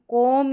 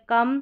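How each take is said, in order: First: The vowel sounds like a long 'o'. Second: The vowel sounds like a short 'uh'. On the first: The speaker calls it wrong. "इसको कोम ... करके नहीं पढ़ रहे" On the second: The speaker calls it right. "हम पढ़ रहे कम"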